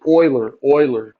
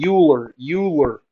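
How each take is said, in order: First: Euler said as OY-ler, lower; correct pronunciation. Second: Euler mispronounced as YOO-ler; common mispronunciation. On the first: Teacher corrects the class's mistake, Euler as OY-ler. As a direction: say Euler with an "oy" opening, firmly corrected. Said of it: "it's pronounced Euler". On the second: Teacher shows the class the common mistake, Euler as YOO-ler. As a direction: start Euler with "you" instead of "oy". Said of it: "Everyone wants to say". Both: Shown as a demonstration.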